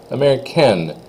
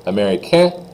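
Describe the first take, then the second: First: High, falling américaine with its N; N sounded. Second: High, rising américain without N; silent N. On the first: Teacher contrasts the forms for students, N said in américaine. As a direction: finish américaine on the N. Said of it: "you do say the N". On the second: Teacher contrasts the forms for students, N dropped from américain. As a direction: lift américain and leave off the N. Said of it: "you don't say the N". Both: Shown as a demonstration.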